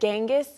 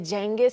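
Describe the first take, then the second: First: The name starts with a hard G sound. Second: The name starts with a J sound. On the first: This is how the dog's owner says the name. "I was trying to say Genghis" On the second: This is the speaker's habitual way of saying it. "but I always say Genghis"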